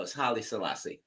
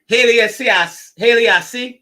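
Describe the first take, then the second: First: Haile Selassie said softly and carefully, HAI-lee suh-LAH-see; quiet careful Haile Selassie; correct Haile Selassie. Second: Haile Selassie said loud and high, stumbling over the name; mispronounced Haile Selassie. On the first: Shown as a demonstration. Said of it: "No, yeah, no". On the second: Real, not acted. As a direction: shout Haile Selassie with a garbled Selassie. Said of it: "You can't even say that right".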